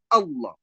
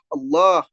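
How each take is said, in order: First: The vowel after the l is short. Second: The vowel after the l is lengthened. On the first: The speaker calls it wrong. "bukan Allah ... kehilangan mat pada lafzul jalal" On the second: The speaker calls it right. "Yang benar adalah Allah"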